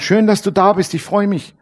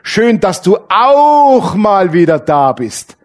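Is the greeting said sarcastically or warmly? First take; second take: warmly; sarcastically. First: The greeting sounds warm and sincere. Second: The greeting sounds sarcastic and reproachful.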